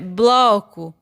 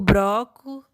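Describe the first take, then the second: First: The cluster has an L sound after b. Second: The cluster has an R sound after b. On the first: This is the standard form. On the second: This is a spoken regional variant.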